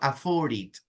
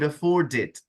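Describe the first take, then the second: First: The D sound at the end is dropped. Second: The D sound at the end is clearly heard. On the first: The speaker calls it wrong. "it's not afford it" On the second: The speaker calls it right. "La D tiene que sonar"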